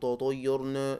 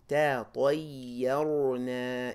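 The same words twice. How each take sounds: First: All the sounds are said flat and alike. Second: Heavy and light sounds alternate with animated articulation. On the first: The speaker calls it wrong. "we're not saying tatayyarna, right? It's not just this one sort of monotone" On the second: The speaker calls it right. "your mouth is animated"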